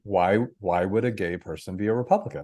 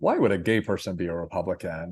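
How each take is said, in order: First: It sounds genuinely curious and inquiring. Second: It sounds skeptical and dismissive.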